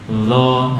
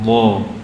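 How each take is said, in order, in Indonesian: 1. Konsonan ini terdengar seperti l. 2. Konsonan ini bunyi emfatik yang berat. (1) "Nanti jadi lo"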